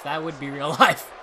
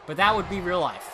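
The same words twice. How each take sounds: First: Laughing mid-sentence. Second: Said in the usual way. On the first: Real, not acted. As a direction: let a laugh break into it.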